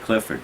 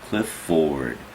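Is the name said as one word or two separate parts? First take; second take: one word; two parts. First: The name is said as one smooth word. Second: The name is split into two separate parts. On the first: This is the ordinary way of saying the name. "I say Clifford" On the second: Someone trying to get every syllable said it this way. "it was Cliff Ford"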